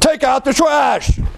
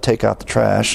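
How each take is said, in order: First: The phrase is said in a raised voice. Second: The phrase is said at a calm volume.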